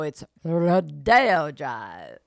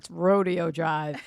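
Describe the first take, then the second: First: Rodeo is said in the fancier, posh way. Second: Rodeo is said in the plain everyday way. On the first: The street is in the upscale area. "when you get up to Rodeo" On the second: The street is near the airport. "by the other end, by the on the way to the airport"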